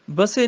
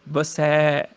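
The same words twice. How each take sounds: First: ਬਸੇ ending in close 'e'; wrong close vowel. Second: ਬਸੈ lower, ending in open 'ai'; corrected open vowel. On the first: Teacher showing the mistake, ਬਸੇ with close final 'e'. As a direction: say ਬਸੇ as 'ba-say'. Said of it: "ਨਹੀਂ". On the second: Teacher correcting, ਬਸੈ with low open final 'ai'. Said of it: "ਸੱਸੇ ਨੂੰ ਦਲਾਵਾਂ ਹੈਗੀਆਂ". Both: Shown as a demonstration.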